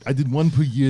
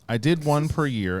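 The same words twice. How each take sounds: First: It is said in a put-on impression voice. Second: It is said in the speaker's normal voice.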